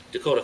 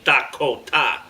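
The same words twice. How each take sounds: First: Said in the usual way. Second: Put-on Dakota said loud in a foreign accent. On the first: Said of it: "Dakota thought to himself". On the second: A narrator's reading. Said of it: "spoke loudly and meanly".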